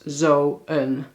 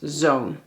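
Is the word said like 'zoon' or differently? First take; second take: differently; like zoon. First: The word is not said like 'zoon'. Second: The word is said like 'zoon'. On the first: The speaker calls it wrong. "dit gebruiken we nooit als zo'n" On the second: The speaker calls it right. "maar alleen als zoon"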